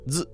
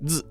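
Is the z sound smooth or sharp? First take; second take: sharp; sharp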